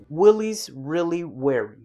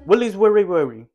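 First: It is spoken slowly and clearly. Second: It is spoken fast and slurred together. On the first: The speaker calls it right. "here's me speaking more slowly" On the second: The speaker calls it wrong. "when we force ourselves to speak fast"

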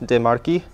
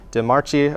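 First: The last syllable begins with a k sound. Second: The last syllable does not begin with k. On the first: The speaker calls it right. "it's actually a key sound" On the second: The speaker calls it wrong. "a normal American would probably pronounce this DeMarchi"

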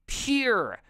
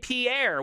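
First: It is said in one syllable, like peer. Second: It is said in two syllables, French style. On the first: The speaker calls it right. "It's pronounced peer, like P-U-R-E" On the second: The speaker calls it wrong. "you would say Pierre. Well, guess what, you dumbass? That's not how you say it at all"

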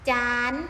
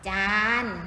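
First: The syllable is said with the tri tone. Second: The syllable is said with the saman tone. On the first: "รูปตรีเสียงตรี" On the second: "ถ้าเป็นไม่มีรูปวรรณยุกต์แสดงว่าเป็นเสียงสามัญ"

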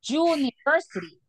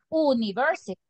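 First: It begins with a consonant-like 'y' sound. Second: It begins with a plain vowel sound. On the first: The speaker calls it right. "we pronounce it university, como pronunciáramos con una consonante" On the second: The speaker calls it wrong. "pero no decimos university"

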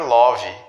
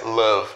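First: The vowel sounds like a rounded 'o'. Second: The vowel sounds like an unrounded 'uh'. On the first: The speaker calls it wrong. "As pessoas costumam pronunciar love" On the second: The speaker calls it right. "quando na verdade a pronúncia é love. ... o O ele se transforma como se fosse um A com acento circunflexo"

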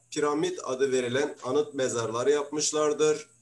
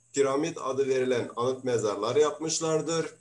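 Both takes have the same delivery.

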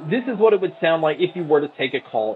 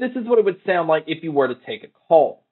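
First: The voice is heard over background crowd noise. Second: The voice is heard without background crowd noise. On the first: "here is a mic test for the crowd noise being played" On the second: "here is a mic test using the Flybuds NC"

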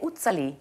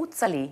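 First: The name is said with a German-style pronunciation. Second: The name is said with a German-style pronunciation.

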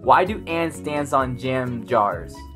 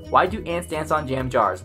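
First: The sentence is said at a normal pace. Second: The sentence is said quickly.

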